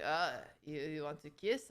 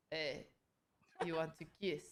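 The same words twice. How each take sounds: First: The creep's line again, low and quiet; sleazy guy asking. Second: A low, lazy mock of the creep; lightly voiced pushy guy, quiet and low; sleazy guy asking. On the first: Retold or imitated. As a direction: drag it out low, pushy and dopey. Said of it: "the other guy's like". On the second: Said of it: "he's like".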